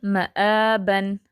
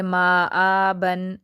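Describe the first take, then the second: First: माआबन with only आ lengthened and मा kept short; माआबन with the correct short मा; correct reading. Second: माआबन with both मा and आ dragged out very slowly; माआबन said very slowly, lengthening too much; wrong stretched reading. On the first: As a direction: read माआबन right, stretching just आ. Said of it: "पढ़ेंगे माआबन". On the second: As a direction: overstretch माआबन as the mistake. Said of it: "ऐसे नहीं पढ़ेंगे". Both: Shown as a demonstration.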